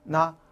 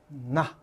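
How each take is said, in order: First: The syllable is said with a sharp, forceful attack. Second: The syllable is said softly and relaxed. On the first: The speaker calls it right. "칼로 순간적으로 나" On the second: The speaker calls it wrong. "그냥 나가 아니라"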